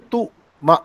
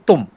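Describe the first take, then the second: First: The word is broken into two separate sounds. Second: The word is said smoothly as one syllable. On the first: The speaker calls it wrong. "हम ये भी नहीं बोल सकते" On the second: The speaker calls it right. "हम बोलेंगे तुम"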